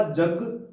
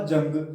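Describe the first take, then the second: First: "जग" with no nasal before ग; without anusvara. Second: "जंग" with nasal ng before ग; with anusvara. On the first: Teacher removes the anusvara for students, "जग" without nasal. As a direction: say "जग" purely oral, no n sound. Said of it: "ये अनुस्वार यहाँ से हटा दिया जा". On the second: Teacher contrasts for students, "जंग" with the nasal sound. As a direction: send the middle of "जंग" through the nose. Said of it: "और अब उच्चारण होगा". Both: Shown as a demonstration.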